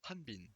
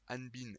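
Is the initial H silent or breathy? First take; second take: breathy; silent. First: The initial H is breathy and aspirated. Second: The initial H is silent. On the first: "prononcez bien le H. Il suffit d'aspirer" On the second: "Hanbin est acceptable"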